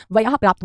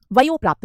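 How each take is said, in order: First: वयः प्राप्त with open "a-h" ending on वयः; correct form. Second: वयो प्राप्त with an "o" ending on वयो; wrong form. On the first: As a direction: say वयः as "va-yah", not "va-yo". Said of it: "वयः प्राप्त होता है". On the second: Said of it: "वयो प्राप्त नहीं होता बेटा". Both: Shown as a demonstration.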